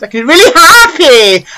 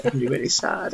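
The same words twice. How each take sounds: First: Mock happy, much higher and louder; hammed-up delight, high and loud; really happy. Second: Mock sad, much softer; hammed-up misery, dropping right down; really sad. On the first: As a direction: burst into fake joy. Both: Shown as a demonstration.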